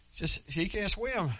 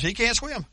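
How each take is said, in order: First: Said in the usual way. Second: High, urgent cry with weight on can't; frantic mother. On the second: Acted. Mother crying out that her boy can't swim, high and urgent. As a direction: plead that he can't swim, alarmed.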